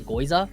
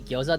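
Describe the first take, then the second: First: The word begins with a 'goy' sound. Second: The word begins with a 'gyo' sound. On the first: The speaker calls it wrong. "they'll say goiza" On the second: The speaker calls it right. "people won't say gyoza"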